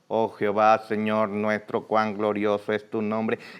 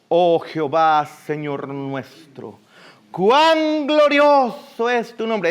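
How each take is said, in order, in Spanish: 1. Se lee con un tono plano y sencillo. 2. Se dice con una entonación viva y expresiva. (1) "Es muy distinto a leerlo" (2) "¿cómo hablarlo pues?"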